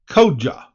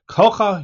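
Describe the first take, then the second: First: The middle consonant is a soft j sound. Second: The middle consonant is a hard k sound. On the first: The speaker calls it right. "Should put the pronunciation first" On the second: The speaker calls it wrong. "I've been saying it wrong"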